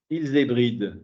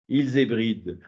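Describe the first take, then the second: Both takes have the same delivery.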